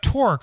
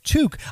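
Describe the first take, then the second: First: The name is said with an R sound. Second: The name is said without an R sound. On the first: The speaker calls it wrong. "there's no R in there" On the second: The speaker calls it right. "it's Took"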